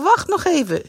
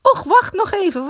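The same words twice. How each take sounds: First: High repeated whiny plea; whining. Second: High, louder whiny plea; whining. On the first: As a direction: Greet begging them to wait, whining. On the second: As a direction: drag it out, nagging. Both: A narrator's reading. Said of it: "zeurde Greet weer".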